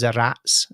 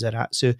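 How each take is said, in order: First: It ends abruptly with a final 'ts' sound. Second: It ends with an added final 'tsu' syllable. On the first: "as pronounced in German" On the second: "the Japanese pronunciation of it is Zaratsu"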